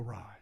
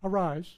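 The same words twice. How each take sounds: First: The word is said softly and tenderly. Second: The word is said hard and commanding. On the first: It is a tender call from someone who loves her. The speaker calls it right. "Jesus said this in a loving way" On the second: It is a cold order with no affection. The speaker calls it wrong. "It wasn't like"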